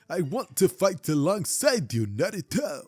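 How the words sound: It is said in a Might Guy impression.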